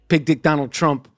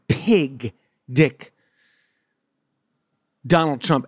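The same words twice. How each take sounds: First: It is said at normal speed. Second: It is said slowly and deliberately.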